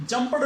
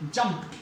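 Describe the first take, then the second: First: "jumped" said as "jum-ped" with an extra vowel and a d ending; the mistaken "jumpad" form of "jumped"; wrong ending. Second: "jumped" said as "jumpt" with a t ending and no extra vowel; the correct "jumpt" form of "jumped". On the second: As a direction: end "jumped" with a crisp t sound. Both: Shown as a demonstration. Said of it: "jumped नहीं".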